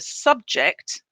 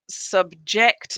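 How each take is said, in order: First: The stress is on the first syllable. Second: The stress is on the second syllable. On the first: It is used as a noun. "if it's a noun, the stress is on the first syllable" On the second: It is used as a verb. "if it's the verb, the stress is on the second syllable"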